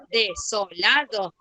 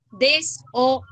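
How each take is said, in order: First: "desolado" slowly split as de, so, la, do; resyllabified demo. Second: "desolado" chopped as des, o, la, do; syllable-by-syllable demo. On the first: Teacher gives the other option, "desolado" split de-so-la-do. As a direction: break "desolado" into syllables, S starting the second. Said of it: "Puedo decir desolado". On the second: Teacher gives one option to pupils, "desolado" split des-o-la-do. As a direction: separate "desolado" into pieces, S closing the first. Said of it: "yo puedo decir desolado". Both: Shown as a demonstration.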